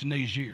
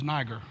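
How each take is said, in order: First: The name is said with a French pronunciation. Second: The name is said with an English-style pronunciation. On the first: The speaker calls it right. "It's actually a French pronunciation" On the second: The speaker calls it wrong. "It's not pronounced properly"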